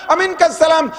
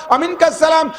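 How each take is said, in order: Both takes have the same delivery.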